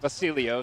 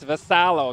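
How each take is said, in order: First: The name sounds like Basilio. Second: The name sounds like Vassallo. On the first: The speaker calls it wrong. "not Basilio" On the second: The speaker calls it right. "It's Vassallo"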